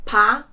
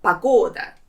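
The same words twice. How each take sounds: First: Pa-go-da split into three clear beats; syllable by syllable. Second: Pagoda as pa-GO-da, middle syllable hit; stress on the second syllable. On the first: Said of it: "three syllables in this word". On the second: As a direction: join Pagoda up, leaning on GO. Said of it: "the second one is stressed". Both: Shown as a demonstration.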